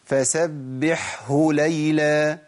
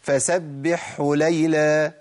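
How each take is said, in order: First: The final h is clearly pronounced. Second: The final h is merged and lost. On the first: The speaker calls it right. "أنا جبتها كده مظبوط؟" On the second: The speaker calls it wrong. "اسمع الخطأ بقى ... الهاء اضغمت خلاص"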